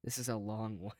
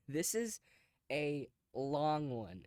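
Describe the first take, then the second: First: Said in the usual way. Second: LONG stretched out very slowly; slow, amused stress on a drawn-out "long"; drawn-out emphasis. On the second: Real, not acted. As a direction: repeat it with "long" dragged right out. Repeats it, amazed at the length.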